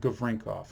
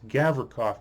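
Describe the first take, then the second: First: It is said with an n before k. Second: It is said without an n before k. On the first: The speaker calls it wrong. "not Gavrinkov" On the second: The speaker calls it right. "There's no N in that name. It's Gavrikov"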